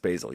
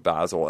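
First: It is said with an American pronunciation. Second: It is said with a British pronunciation. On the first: The speaker calls it right. "no, you're American. It's basil" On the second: The speaker calls it wrong. "I look at it go basil"

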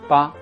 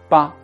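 Both takes have the same delivery.

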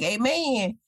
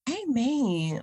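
First: It sounds curt, dismissive and unimpressed. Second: It sounds warm, moved and sincere. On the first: What was said was foolish, or there is no response. "If that's her tone of voice, y'all, that's a red flag" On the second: The listener was truly touched by what was said. "That's her really trying to process it. Like she really got blessed by it"

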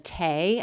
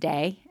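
First: The word begins with a T sound. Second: The word begins with a D sound. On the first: The speaker calls it wrong. "my apologies for mispronouncing" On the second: The speaker calls it right. "I think it's pronounced Day"

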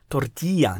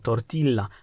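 First: The double l is said as a y sound. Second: The double l is said as an l sound. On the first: The speaker calls it right. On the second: The speaker calls it wrong. "nie tortilla"

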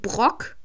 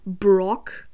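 First: The name is pronounced with German sounds. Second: The name is pronounced with English sounds. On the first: The speaker calls it wrong. "manche sagen Brock ... nur im Deutschen" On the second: The speaker calls it right. "wenn man korrekt sein will und keinen Fehler machen will, sagt man Brock"

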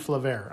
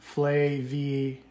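First: The name ends with an 'air' sound. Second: The name ends with an 'ee-er' sound. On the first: This is how the speaker had been saying it. The speaker calls it wrong. "I've been saying Flavair" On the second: This is how the company's own guide says it. The speaker calls it right. "I'm going to pronounce it correctly because the dude on the guided tasting pronounced it"

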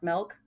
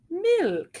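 First: The vowel sounds like an e. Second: The vowel sounds like an i. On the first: The speaker calls it wrong. "You say milk with an E" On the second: The speaker calls it right. "Am I doing it right?"

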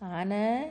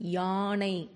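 First: The word begins directly with a vowel. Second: The word begins with a y sound. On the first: The speaker calls it wrong. "பேச்சு வழக்கில் நம்ம என்ன சொல்லக்கூடாது" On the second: The speaker calls it right. "இதை இப்படித்தான் சொல்லணும்"

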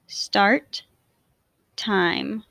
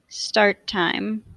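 First: The words are said with a break between them. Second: The words are joined smoothly with no break. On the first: "I will say the words with a space in between" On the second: "in a more fluid way to demonstrate linking"

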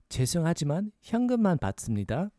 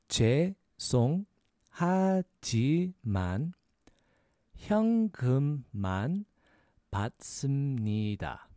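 First: It is said fast. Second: It is said slowly.

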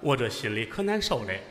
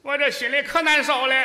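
First: It is said in a male voice. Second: It is said in a put-on female voice.

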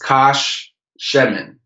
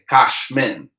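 First: It is said in three syllables, including 'she'. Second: It is said in two syllables, without 'she'. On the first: "the first syllable is kash. The second syllable is she. And the third syllable is men" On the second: "It's almost like they had a silent shiva"

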